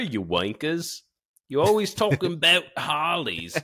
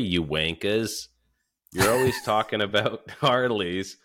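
First: It is read in a put-on British accent. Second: It is read in the speaker's normal American accent.

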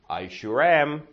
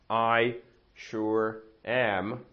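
First: The words run together, sounds linked across boundaries. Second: Each word is said separately, with breaks between. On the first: The speaker calls it right. "ale tohle je to dělítko" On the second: The speaker calls it wrong. "oni neřeknou I sure am"

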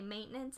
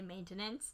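First: The middle T sound is dropped. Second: The middle T sound is clearly pronounced. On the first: This is how most people say it. "most people don't hit the T in maintenance. They just say" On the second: This is the speaker's own, carefully enunciated way. "I say maintenance"

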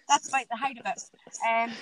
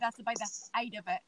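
First: The h in 'height' is pronounced. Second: The h in 'height' is dropped.

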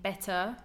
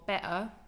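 First: The t is a clear, fully released t. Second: The t is replaced by a glottal stop. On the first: "better with a true T" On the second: "better with a glottal T"

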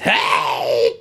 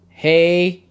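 First: It is said in an excited clown voice. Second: It is said in a flat, annoyed voice.

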